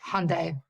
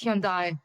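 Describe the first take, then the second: First: The brand name is said the American way. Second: The brand name is said the original way. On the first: The speaker calls it wrong. "not not Hyundai" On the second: The speaker calls it right. "it's Hyundai"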